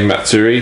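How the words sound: It is said with an English accent. The speaker calls it wrong. "that's the incorrect way to pronounce it"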